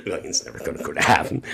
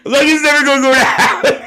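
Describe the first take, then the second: First: Said in the usual way. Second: Squealing the line through real laughter, much higher and louder; can barely get the words out for laughing; laughing hard. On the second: Real, not acted.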